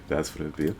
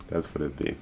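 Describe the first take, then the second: No difference in how they are said.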